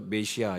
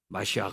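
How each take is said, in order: First: It ends softly on a plain vowel. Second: It ends with a strong, harsh throaty sound. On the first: "우리나라 또 메시아 이렇게 번역을 했습니다" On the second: "키역 발음을 아주 강하게 내면서"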